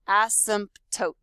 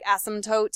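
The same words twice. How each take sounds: First: Every letter, including P and T, is pronounced. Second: It is said quickly, with P and T dropped. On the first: "the correct way to say this word is seriously to say every single letter" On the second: "if you're saying it quicker, it just sounds like asymptote"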